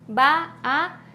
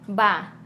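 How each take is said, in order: First: Two separate vowel sounds are heard. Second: The vowels merge into one sound.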